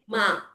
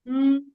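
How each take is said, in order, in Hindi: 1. होंठ खुलकर "ah" स्वर बनते हैं। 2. होंठ गुनगुनाहट में बंद रहते हैं। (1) "most of the time we mispronounce this is like ma" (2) "zip your mouth, seal your mouth and say mm"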